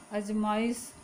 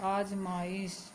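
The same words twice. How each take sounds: First: अजमाइश with a short first a; अजमाइश said ajmaish, first a short; wrong form. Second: आजमाइश with a long first aa; आजमाइश said aajmaish, first vowel long; correct form. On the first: Teacher shows pupils the wrong अजमाइश with a short a. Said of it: "शुद्ध रूप इसका होता है आजमाइश". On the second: Teacher gives pupils the correct आजमाइश with a long aa. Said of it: "शुद्ध रूप इसका होता है". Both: Shown as a demonstration.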